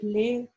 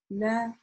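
First: The vowel leans toward 'e'. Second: The vowel is a clear open 'a'. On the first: The speaker calls it wrong. "чтобы это звучание не склонялось к э, например, ле" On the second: The speaker calls it right. "Это будет звучать ля"

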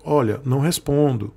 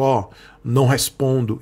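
First: It is said in a warm, gentle tone. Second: It is said in a cold, curt tone. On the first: The reply is kind and respectful. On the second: The reply seems dismissive.

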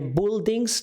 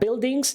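First: The first syllable sounds like 'bull'. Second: The first syllable sounds like 'bill'. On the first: The speaker calls it wrong. "nie buildings, czasami słyszę tę wymowę" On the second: The speaker calls it right. "oczywiście będzie bill"

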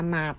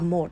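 First: The word is said with an open 'a' vowel. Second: The word is said with a rounded 'o' vowel. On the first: This is the everyday spoken form. "Khi mà người ta nói là mạt" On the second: This is the reading form. "khi người ta đọc là một"

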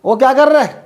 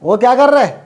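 First: The ending is squeezed into one short syllable. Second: The ending is squeezed into one short syllable.

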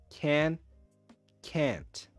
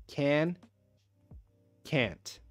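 The two takes are said the same way.

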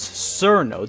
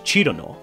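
First: The name is read as English spelling suggests. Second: The name is said with its Japanese pronunciation. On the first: "other Westerners say it as Cerno due to how it's written in Latin characters" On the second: "the original Japanese"

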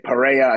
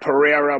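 First: The middle consonant sounds like an H. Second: The middle consonant is an ordinary R sound. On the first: "I think they say Pereira. I think the R sounds like an H in Portuguese" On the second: "it looks like Pereira"

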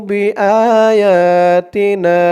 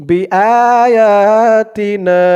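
The two takes are said the same way.

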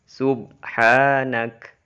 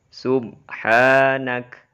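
No difference in how they are said.

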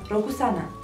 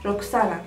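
First: The name is said slowly, each syllable clear. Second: The name is said quickly, sounding like Roxana. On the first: "Dar se va scrie Rokusana" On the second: "Dacă îl pronunți repede, se aude ca și cum e X"

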